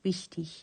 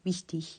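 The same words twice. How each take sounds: No difference in how they are said.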